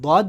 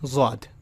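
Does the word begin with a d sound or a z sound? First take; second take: d sound; z sound. First: The word begins with a d sound. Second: The word begins with a z sound. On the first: "अगर आप इसको दौद बोलेंगे तो it will be डी W A डी" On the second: "ज़ौद अगर आप बोलेंगे तो it will be जेड W A डी"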